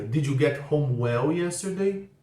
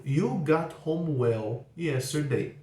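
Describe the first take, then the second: First: "Did" put first, said slowly with stress on "yesterday"; slow question. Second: "You got home well yesterday." drawn out word by word; very slow statement. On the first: Teacher modelling the question with did, slow. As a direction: ask it slowly, landing on "yesterday". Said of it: "a pergunta fica". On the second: Teacher modelling the statement for students, very slow. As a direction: read it very slowly for learners. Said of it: "Por exemplo". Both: Shown as a demonstration.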